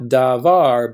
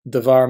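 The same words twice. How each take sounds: First: The first vowel is full and clear. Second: The first vowel is reduced almost to nothing. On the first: The word stands on its own. The speaker calls it wrong. "not davar" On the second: The word is tied to the next word. The speaker calls it right. "there's hardly any vowel up here"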